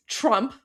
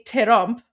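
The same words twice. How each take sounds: First: Said in the usual way. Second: "terump" split into two syllables; Persian pronunciation. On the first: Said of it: "in English, it's". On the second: Shown as a demonstration. Streamer showing how Persian adds a syllable, two-beat "terump". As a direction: add a short vowel after the T in "terump". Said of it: "but in Persian, we say".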